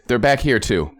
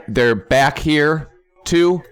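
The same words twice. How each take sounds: First: Said in the usual way. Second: Slow, stretched "too?" in mock disbelief; disbelieving question. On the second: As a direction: drag it out like you can't believe they're back. Finds them again, disbelieving.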